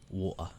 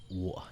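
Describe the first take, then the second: First: The T in the middle is dropped entirely. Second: The T in the middle is dropped entirely.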